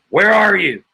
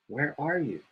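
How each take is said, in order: First: It is said in an angry, forceful tone. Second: It is said in a soft, gentle tone. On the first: The asker is angry and threatening. "He's not saying it angrily. He's not saying" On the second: The asker is politely seeking the other. "He's saying it uh, in a softer way"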